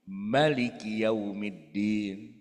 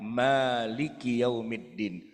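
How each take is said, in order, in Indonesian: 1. Vokal pertama pada Maliki pendek. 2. Vokal pertama pada Maliki panjang. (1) "bacanya pendek" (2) "Itu kalau dibaca panjang Pak"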